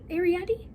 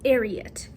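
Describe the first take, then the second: First: The name ends in an 'ee' sound. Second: The name ends in an 'at' sound. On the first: The speaker calls it wrong. "I was saying Ariety" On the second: The speaker calls it right. "I think that's how you say it"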